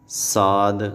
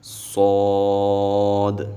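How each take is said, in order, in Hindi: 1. यह अक्षर हल्का बोला जाता है, भारी नहीं। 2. यह अक्षर भारी और पूरा बोला जाता है। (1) "साद ऐसे नहीं पढ़ना" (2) "सौद को हमने मोटा पढ़ना है"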